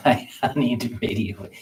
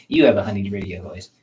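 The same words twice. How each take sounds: First: Laughing while repeating the compliment; amused chuckle through the words. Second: Said in the usual way. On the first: Real, not acted.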